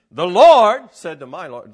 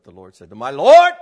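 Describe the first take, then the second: First: "the Lord said to my Lord" loud and settled, falling firmly on the final "Lord"; preacher modelling the right reading, loud and falling; best reading. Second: "the Lord said to my Lord" with a loud questioning rise on the last "Lord"; preacher showing the wrong way to read it, loud and rising. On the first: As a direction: declare it, landing the last "Lord" with a firm fall. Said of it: "That's, that's the best". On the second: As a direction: blast the whole line and tip the final "Lord" up as if asking. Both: Shown as a demonstration.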